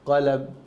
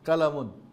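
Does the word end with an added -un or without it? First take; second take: without -un; with -un. First: The word ends on a bare consonant. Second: The word ends with an added -un. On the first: The speaker calls it right. "থামার সময় সুকুন দিয়ে থামতে হবে" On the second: The speaker calls it wrong. "না, ঠিক না"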